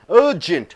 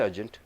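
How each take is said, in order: First: The first vowel is drawn out long. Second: The first vowel is short and clipped. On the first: The speaker calls it right. "You just pull it" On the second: The speaker calls it wrong. "You don't say urgent"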